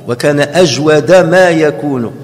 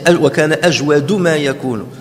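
First: The word ajwad ends in an 'a' vowel. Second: The word ajwad ends in a 'u' vowel. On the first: The word is the predicate of kana. "on peut aussi lire ajwada" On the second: The word is the subject of kana. "le plus probant, selon les savants"

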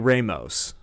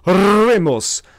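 First: The R at the start is a plain English R. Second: The R at the start is strongly rolled. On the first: The speaker calls it right. "just say Ramos" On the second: The speaker calls it wrong. "rolling their R's excessively"

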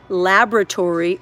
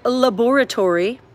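First: It is said in an American pronunciation. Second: It is said in a British pronunciation.

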